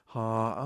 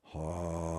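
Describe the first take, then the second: First: The sound is pitched in the middle. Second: The sound is pitched low. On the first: The speaker calls it right. "that's just right" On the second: The speaker calls it wrong. "too low"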